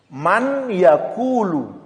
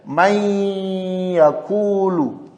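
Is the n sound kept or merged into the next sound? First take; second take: kept; merged. First: The n is said clearly before the y. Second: The n merges into the y with nasal hum. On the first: The speaker calls it wrong. "bukan man lagi di sini" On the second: The speaker calls it right. "Ingat dengan dengung ya"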